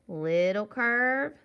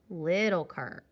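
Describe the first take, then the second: First: Slow "little curve", "curve" long, loud and lifted; rising tune. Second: "little curve" falling on "curve"; falling tune. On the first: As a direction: stretch "curve" upward, unfinished. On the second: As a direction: close "little curve" on a lower pitch. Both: Shown as a demonstration. Chanting along with drawn letter strokes.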